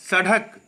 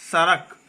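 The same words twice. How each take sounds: First: सड़क with a hard d; wrong pronunciation. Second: सड़क with a flapped r sound; correct pronunciation. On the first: Teacher marking it as incorrect, wrong pronunciation. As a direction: say सड़क with a d stop. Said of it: "ये अशुद्ध है". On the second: Teacher marking it as correct, correct pronunciation. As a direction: tap a light r in सड़क. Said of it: "शुद्ध है". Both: Shown as a demonstration.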